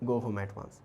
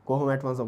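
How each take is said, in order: First: It is said softly and plainly, without force. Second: It is said forcefully, like a scolding command. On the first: It is a neutral remark, not an order. The speaker calls it wrong. "আস্তে করে মানে just normally বলবে না" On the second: It is an order, a scolding. The speaker calls it right. "অবশ্যই একটু মানে একটু বুঝতে পারছো অর্ডার টাইপের"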